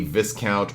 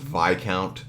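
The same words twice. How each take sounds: First: The first syllable rhymes with 'this'. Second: The first syllable rhymes with 'die'. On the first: "you get a discount at a store" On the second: "what I've been told is pronounced Viscount"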